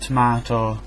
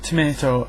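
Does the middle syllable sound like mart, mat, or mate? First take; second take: mart; mate. First: The middle syllable sounds like 'mart'. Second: The middle syllable sounds like 'mate'. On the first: "it's not mart" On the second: "it's not mate"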